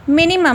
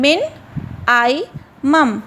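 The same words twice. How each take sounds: First: Said in the usual way. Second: "min, I, mum" as three isolated beats; syllable by syllable. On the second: Shown as a demonstration. Teacher counting three syllables, "min, I, mum" spaced apart. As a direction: pause between "min", "I" and "mum". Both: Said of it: "here three".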